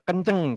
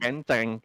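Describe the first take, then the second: First: The word is said plainly, without lowering. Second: The word is said slightly lowered. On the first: This is how most people read the name. The speaker calls it wrong. "rata-rata orang tuh mengira atau membacanya tuh eh, kenceng gitu ya" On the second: This is how the name is actually meant. The speaker calls it right. "Sebenarnya kenceng gitu, agak diturunkan dikit"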